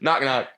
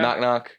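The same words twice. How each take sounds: First: It is said with clear commitment. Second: It is said casually, without commitment.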